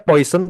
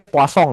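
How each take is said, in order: First: The name is said the plain, non-French way. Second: The name is said with a French pronunciation. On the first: "Jadi namanya Poisson" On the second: "ini orang Perancis, ini dibacanya Poisson ya. Kayak croissant gitu"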